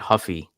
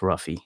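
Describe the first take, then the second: First: The name begins with an H sound. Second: The name begins with an R sound. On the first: The speaker calls it wrong. "I was saying Huffy last week because I just assumed, you know, Brazilian, you don't pronounce the R" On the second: The speaker calls it right. "but I guess it's Ruffy"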